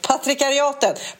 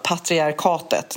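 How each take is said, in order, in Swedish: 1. Stavelserna är blandade som patrikariatet. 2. Stavelserna sägs i ordning som patriarkatet. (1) "Nej, det blir fel" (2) "Nu fick jag till uttalet här"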